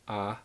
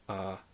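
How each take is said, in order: First: The vowel is said on a higher tone. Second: The vowel is said on a lower tone.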